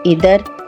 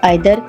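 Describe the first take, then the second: First: The first vowel sounds like 'ee'. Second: The first vowel sounds like 'eye'. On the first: "कुछ लोग इधर" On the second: "और कुछ आइदर बोलते हैं"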